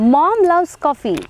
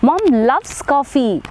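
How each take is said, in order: First: The stress is on mom. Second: The stress is on loves.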